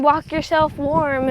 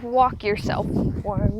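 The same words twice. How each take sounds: First: Said in the usual way. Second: Slow, lower, disbelieving repeat; drawn-out, dubious quoting back; skeptical echo. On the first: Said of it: "Dad was like". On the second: Retold or imitated. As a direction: echo the advice slowly, unconvinced. Incredulous echo of dad's advice.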